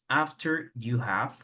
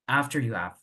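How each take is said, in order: First: The h in 'have' is clearly pronounced. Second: Spoken fast, the h in 'have' is dropped.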